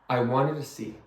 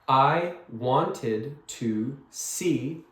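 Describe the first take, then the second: First: The words are said fast and run together. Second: Each word is said slowly and clearly. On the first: "the way it sounds when you when you speak fast" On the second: "the full and clear sentence sounds sounds like this"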